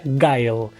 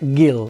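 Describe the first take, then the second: First: The name is said with an English 'guile' sound. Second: The name is said like the Spanish name 'Gil'. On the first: This is the original English name. "Para pronunciarlo bien y en inglés sería Guile" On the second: This is the name as used in childhood. "yo cuando era chico le decía Gil"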